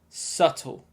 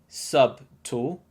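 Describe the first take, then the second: First: No b sound is pronounced in the middle. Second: A b sound is pronounced in the middle. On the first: The speaker calls it right. "You should say subtle" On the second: The speaker calls it wrong. "another sneaky silent letter... B. So don't say subtle"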